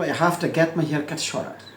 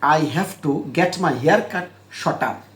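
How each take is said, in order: First: Have to becomes hafta and t sounds like d. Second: Each word is said fully and separately. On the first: "বিদেশি বলবো" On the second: "আগে normal বলি"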